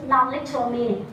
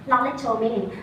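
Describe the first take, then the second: No difference in how they are said.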